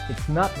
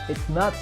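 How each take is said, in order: The two takes are said the same way.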